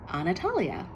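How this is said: The name is said with an American accent. It is the easier version for others to say. The speaker calls it wrong. "this this Americanized, sanitized even version of my name"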